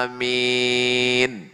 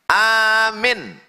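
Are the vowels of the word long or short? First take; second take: long; short. First: Both vowels are drawn out long. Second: Both vowels are said short. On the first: It asks God to grant the prayer. The speaker calls it right. "A-nya panjang, min-nya panjang" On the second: It tells someone to believe the speaker. The speaker calls it wrong. "Kalau dibacanya amin, artinya percayalah"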